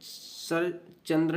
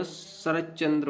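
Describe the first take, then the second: First: सरचंद्र without the doubled च; wrong pronunciation. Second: शरच्चंद्र with doubled च; correct pronunciation. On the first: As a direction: run सर straight into चंद्र with a single च. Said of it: "न शरच्चंद्र होता है". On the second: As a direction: hold the च्च between शर and चंद्र. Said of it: "शरच्चंद्र होता है". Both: Shown as a demonstration.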